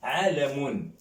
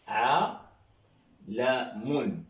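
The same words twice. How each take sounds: First: Said in the usual way. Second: عالم drawn out very slowly, each syllable held; slow model word. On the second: Shown as a demonstration. Teacher to French class modelling Arabic word, very slow. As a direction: stretch عالم out slowly so students can follow. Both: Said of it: "On dit par exemple".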